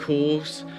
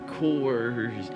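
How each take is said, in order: First: The word is said without an R sound. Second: The word is said with an R sound. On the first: This is how the speaker's accent says it. "I say um, course" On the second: This is the older form with the R sound. "instead of"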